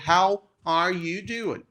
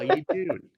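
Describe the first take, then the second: First: Each word is said clearly and slowly. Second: The words run together into one quick sound. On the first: "a pronúncia mais clara e pausada seria" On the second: "o Joey é o melhor exemplo que tem de connected speech"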